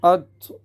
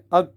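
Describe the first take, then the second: First: Heavy t echoing after the stop; qalqalah on taa. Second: Closing t with no echoing bounce; t stopped short. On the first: Teacher corrects the mistake, bouncing the heavy t. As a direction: release the t with a bounce. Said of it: "یعنی قلقلہ کرنا پڑے گا". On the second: Teacher shows students the mistake, t stopped without qalqalah. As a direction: cut the sound on t. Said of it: "آواز روک دیں گے، یہ غلط". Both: Shown as a demonstration.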